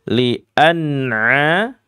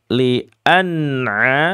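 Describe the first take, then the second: The two takes are said the same way.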